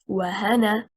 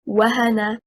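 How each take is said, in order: First: The stress is on the second syllable. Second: The stress is on the first syllable. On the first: It becomes two words: and plus a name. The speaker calls it wrong. "and not" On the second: It is one verb meaning to weaken. The speaker calls it right. "The correct performance is"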